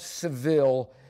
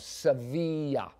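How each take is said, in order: First: The city name is said the English way. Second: The city name is said the Spanish way. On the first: The speaker calls it wrong. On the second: The speaker calls it right.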